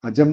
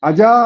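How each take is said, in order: First: The word is said at a normal pitch. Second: The word is said at a high pitch. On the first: The word means a goat. "നമ്മള് സാധാരണ ശ്രുതിയിലാണ് അജം എന്ന് പറഞ്ഞാൽ ആടെന്ന അർത്ഥം" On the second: The word means God. "ഉയർന്ന സ്വരത്തിലാണ് പറയുന്നതെന്നുണ്ടെങ്കിൽ അതിന്റെ അർത്ഥം ഈശ്വരൻ"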